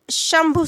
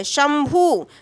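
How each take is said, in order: First: शंभु said with an aspirated bh, shambhu; शंभु pronounced correctly with a breathy bh sound; correct pronunciation. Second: शंभु said as shambu with a plain b and no aspiration; slow demo of शंभु mispronounced as shambu; wrong pronunciation. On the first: Teacher shows students the correct word, careful clear pronunciation. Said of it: "शंभु शुद्ध शब्द है हमारा". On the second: Teacher demonstrates a student's error, slow mock mispronunciation. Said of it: "उच्चारण की दृष्टि से सही लग रहा है? गलत है". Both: Shown as a demonstration.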